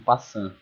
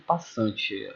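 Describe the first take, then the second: First: The word ends without a final vowel sound. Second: The word ends with a final vowel sound. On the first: "elas pronunciam passant" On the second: "algumas pessoas não pronunciam passante"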